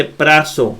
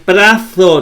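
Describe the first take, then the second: First: Prazo quick, with one short z; single short consonant. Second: Prazo slow, with a long held z; wrong doubled consonant. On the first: Teacher giving the proper reading, prazo kept short. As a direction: keep prazo short, no hold on the z. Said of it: "se dice prazo". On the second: Teacher showing what not to say, prazo drawn out. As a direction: stretch the z in prazo. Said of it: "no se dice". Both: Shown as a demonstration.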